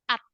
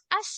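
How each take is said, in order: First: The syllable ends with a t sound. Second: The syllable ends with an s sound. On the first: The speaker calls it right. "Harusnya dibacanya at gitu" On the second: The speaker calls it wrong. "kalau misal kita lihat dari dari Latinnya, ini kan dibacanya as"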